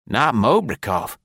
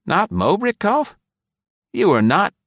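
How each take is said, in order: First: Slow, stunned gasp, falling; a touch of a stunned gasp. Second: Astonished question. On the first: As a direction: breathe it out in shock. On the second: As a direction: ask it in sheer disbelief. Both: A narrator's reading. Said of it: "he gasped".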